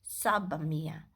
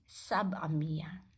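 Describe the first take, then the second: The two takes are said the same way.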